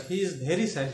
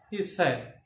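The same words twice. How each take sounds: First: Slight stress on "very"; "very" gently picked out for emphasis. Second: Said in the usual way. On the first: Shown as a demonstration. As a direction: lean a little on the word "very". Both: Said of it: "very gives more emphasis".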